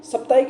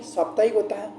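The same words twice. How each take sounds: First: साप्ताहिक said wrongly with a short first vowel, as सप्ताहिक; short a in साप्ताहिक, like sap-taik; wrong form. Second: साप्ताहिक said correctly with a long first aa, saap-taahik; correct form. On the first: Teacher shows students the wrong spelling, short first vowel. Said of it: "साप्ताहिक नहीं". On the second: Teacher gives students the correct form, long first vowel. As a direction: stretch the aa in साप्ताहिक. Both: Shown as a demonstration.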